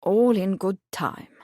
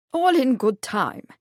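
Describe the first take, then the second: First: Slow, drawn-out, good-humoured repeat; jovial. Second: Jovial, higher-pitched prince. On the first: Prince slowly putting off his companion, mildly jovial. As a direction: stretch it out genially. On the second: Prince putting off a curious companion, jovial. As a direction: put them off good-humouredly. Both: A narrator's reading. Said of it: "the prince said jovially".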